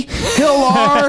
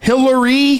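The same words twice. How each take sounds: First: HILLAR high, ending in a drawn-out "ar"; Hillar, pitched up like a big reveal; shortened name. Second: HILLARY spaced out, all three syllables, higher pitch; Hillary, high and deliberate; name in full. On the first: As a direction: say Hillar with no "ee" at the end. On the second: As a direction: say Hillary with a clear "ree" ending. Setting up a name pun. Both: Shown as a demonstration.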